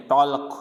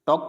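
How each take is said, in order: First: टॉलक with an l before the k; टॉलक, silent L wrongly voiced; sounded L. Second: टॉक with no l before the k; टॉक with the L left mute; silent L. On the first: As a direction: let the l be heard in टॉलक. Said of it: "ऐसे नहीं पढ़ेंगे". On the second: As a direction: run the vowel straight into k in टॉक. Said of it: "टॉक पढ़ेंगे". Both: Shown as a demonstration.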